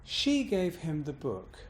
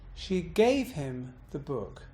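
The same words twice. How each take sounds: First: The pitch bounce and stress fall on she. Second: The pitch bounce and stress fall on gave. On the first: "I've bounced on she" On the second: "I've bounced on gave"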